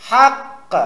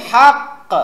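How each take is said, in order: No difference in how they are said.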